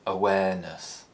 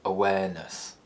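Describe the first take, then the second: First: The pitch falls from a low starting point. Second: The same.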